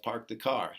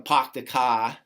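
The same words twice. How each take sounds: First: It is said in a standard accent. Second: It is said in a Boston accent.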